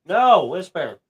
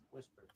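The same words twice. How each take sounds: First: Loud, raised dog command; firm, high-then-falling trainer's command; firm correction. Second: Barely audible whisper; hushed trainer's cue; whispered command. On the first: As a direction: correct the dog sharply and loudly. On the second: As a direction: cue the dog in a tiny whisper. Cues dog to bark softly. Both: Real, not acted.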